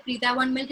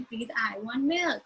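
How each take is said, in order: First: Said in the usual way. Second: Slow, drawn-out sing-song request. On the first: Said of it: "it was very natural". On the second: Shown as a demonstration. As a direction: stretch it out like a nursery rhyme. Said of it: "that sing-song manner".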